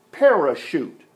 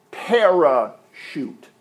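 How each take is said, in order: First: Said in the usual way. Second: Parachute drawn out slowly, syllable by syllable; slow demo word. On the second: Shown as a demonstration. Grammar teacher to congregation, slow spelled-out parachute. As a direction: lay out each part of parachute for the class. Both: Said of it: "Para is a preposition".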